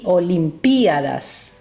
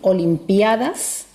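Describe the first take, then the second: First: The stress falls on the vowel 'i' after 'p'. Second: The stress falls on the vowel 'a' after 'p'.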